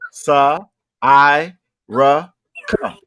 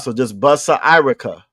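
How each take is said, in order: First: Each syllable is said separately and slowly. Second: The syllables are run together quickly.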